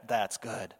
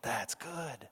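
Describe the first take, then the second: First: Quietly pleased. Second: Near-whispered, much softer repeat; hushed echo. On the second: God savoring his work, hushed and satisfied. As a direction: let the second that's good fade to a breath. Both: Retold or imitated. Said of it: "he goes like".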